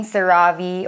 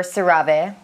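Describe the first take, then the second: First: CeraVe ending in a "vee" sound; CeraVe as ser-AH-vee. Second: CeraVe ending in a "vay" sound; CeraVe as ser-AH-vay. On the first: Vlogger offering both versions, CeraVe as "ser-AH-vee". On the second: Vlogger offering both versions, CeraVe as "ser-AH-vay". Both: Shown as a demonstration. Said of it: "if it's CeraVe or CeraVe".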